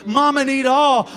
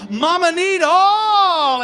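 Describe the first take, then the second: First: Said in the usual way. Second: Mama need all stretched out slowly, much higher and louder; drawn-out cry. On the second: Retold or imitated. Poet voicing his demanding lover, drawn-out high wail. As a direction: wail each word long and high. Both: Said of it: "And she says".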